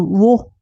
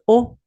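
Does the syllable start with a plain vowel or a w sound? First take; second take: w sound; plain vowel. First: The syllable begins with a w sound. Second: The syllable is a plain vowel o. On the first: This is the old pronunciation. "les anciens qui ont prononcé celui-là, alors, c'était comme wo" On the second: This is the modern pronunciation. "Mais aujourd'hui, on prononce o"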